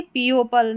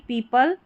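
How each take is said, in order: First: पीओपल with an extra "o" syllable; mispronunciation. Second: पीपल in two syllables, pee-pal; correct pronunciation. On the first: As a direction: show the wrong reading, pee-o-pal for पीओपल. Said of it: "पीओपल नहीं पढ़ेंगे". (गलत उच्चारण, ओ जोड़कर "पीओपल") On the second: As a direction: model पीपल without any "o". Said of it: "पीपल पढ़ेंगे इसको". (सही उच्चारण, बिना ओ के "पीपल") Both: Shown as a demonstration.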